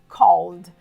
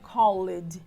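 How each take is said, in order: First: The e in the ending is silent, one syllable. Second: The e in the ending is pronounced as a syllable. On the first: The speaker calls it right. "O correto é called" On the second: The speaker calls it wrong. "não seria correto dizer assim"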